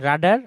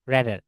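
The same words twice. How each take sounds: First: রাডার, first syllable "raa", not "ray"; contrasted pronunciation. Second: র্যাডার, first syllable "rae", not "raa"; contrasted pronunciation. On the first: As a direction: say রাডার with a long open "aa" first vowel. (রাডার, প্রথমে খোলা "রা" উচ্চারণ) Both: Shown as a demonstration. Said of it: "এই দুইটার মধ্যে difference".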